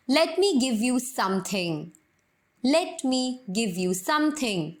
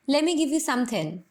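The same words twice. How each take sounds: First: Very slow, "let me" with a clear t; full "let me". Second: "Let me" blended to "lemme"; American "lemme". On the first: Teacher showing the full form first. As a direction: separate every word. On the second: Teacher showing the American lemme. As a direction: run it together. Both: Shown as a demonstration. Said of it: "American pronunciation में बोलूँ".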